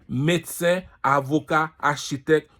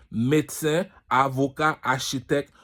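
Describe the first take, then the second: No difference in how they are said.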